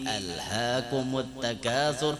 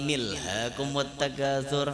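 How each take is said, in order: First: The first vowel is kept and starts the phrase. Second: The first vowel is dropped and the words run together. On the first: The speaker calls it right. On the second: The speaker calls it wrong. "nah luput tam"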